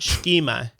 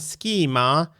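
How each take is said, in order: First: The word begins with an sh sound. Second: The word begins with an sk sound. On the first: The speaker calls it wrong. "not schema, which yes. apparently I've been saying" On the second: The speaker calls it right. "going schema"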